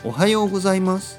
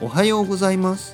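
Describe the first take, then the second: First: It is said flatly, like a robot. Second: The same.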